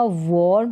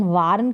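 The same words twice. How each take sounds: First: "वार्न" with a rounded aw, vawrn; AW vowel. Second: "वार्न" with an open aa, vaarn; mistaken AA vowel. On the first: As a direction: say "वार्न" to rhyme with born. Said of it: "वार्न होगा". ("वार्न" में ऑ की ध्वनि, वॉर्न) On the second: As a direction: say "वार्न" with the aa of barn. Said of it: "वार्न करके नहीं होगा". ("वार्न" में खुला आ) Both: Shown as a demonstration.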